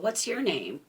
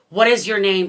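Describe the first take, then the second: First: It is said in a calm, soothing tone. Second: It is said in a harsh, demanding tone.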